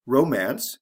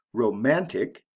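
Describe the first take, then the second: First: Romance with the first syllable pushed and a bit louder; teacher stressing the start of Romance. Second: Romantic with the MAN syllable pushed; teacher stressing the middle of Romantic; stress on the second syllable. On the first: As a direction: lean on the RO of Romance. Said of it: "the first syllable, is emphasized". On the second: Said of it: "the second syllable, is emphasized". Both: Shown as a demonstration.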